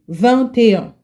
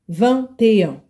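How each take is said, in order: The two takes are said the same way.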